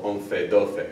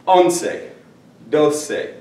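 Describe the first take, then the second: First: "once, doce" with th for each c; Castilian th in both "once" and "doce"; Spain pronunciation. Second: Said in the usual way. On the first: Shown as a demonstration. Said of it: "you'll hear that sound, or a C E sound". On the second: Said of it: "that's not my style".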